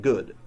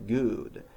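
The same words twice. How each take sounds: First: "good" with a short, lax oo; correct short oo. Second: "good" with a long, tense oo; mispronounced long oo. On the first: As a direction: say "good" with the vowel of book. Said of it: "proper pronunciations". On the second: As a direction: stretch "good" to rhyme with food. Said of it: "which are both long sounds". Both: Shown as a demonstration.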